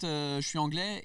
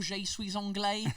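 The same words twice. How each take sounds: First: Je suis anglais in smooth native French, anglais said the French way; easy native French delivery; flawless French accent. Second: Je suis anglais said slow and high with English vowels, anglais as "ong-lay"; hammed-up English accent in French; fake English accent in French. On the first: Retold or imitated. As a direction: say je suis anglais like a born Parisian, no trace of English. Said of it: "with my perfect French accent". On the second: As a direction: drag out je suis anglais like a clumsy English learner. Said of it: "cet accent de merde".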